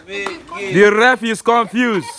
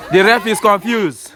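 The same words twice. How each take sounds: First: Slow commentary, stretching every word; slow, drawn-out. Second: Said in the usual way. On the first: Shown as a demonstration. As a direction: drag it out for effect. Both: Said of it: "repeated slower".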